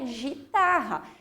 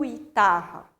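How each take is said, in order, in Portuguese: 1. O primeiro som é suave, como j. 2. Depois do primeiro g vem um som de u. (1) "se eu tiro o U, fica guitarra" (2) "E eu também não falo guitarra"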